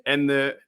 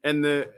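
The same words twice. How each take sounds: The two takes are said the same way.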